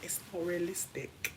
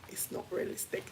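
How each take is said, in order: First: Said in the usual way. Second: Whisper. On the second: Real, not acted. Repeated, whispered.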